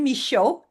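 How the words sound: The name is pronounced the French way. "I pronounce it the French name"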